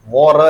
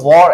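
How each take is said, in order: First: The final r sound is fully pronounced. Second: The final r sound is dropped. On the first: The speaker calls it wrong. "वॉर ऐसा पूरा नहीं बोला जाएगा" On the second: The speaker calls it right. "इसको वॉर ऐसा बोलेंगे"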